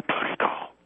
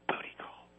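First: Unvoiced hushed whisper; whispering on the phone. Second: Breathy whisper, barely audible; whispering on the phone. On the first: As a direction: whisper it so nobody hears. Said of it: "Why are you whispering?". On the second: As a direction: whisper it like a secret. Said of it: "I'm not gonna say it". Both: Real, not acted.

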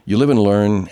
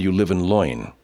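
First: Said in the usual way. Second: LOIN for learn, with an oy vowel; joke mispronunciation. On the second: Pretend. Host twisting a saying for a joke, jokey "loin".

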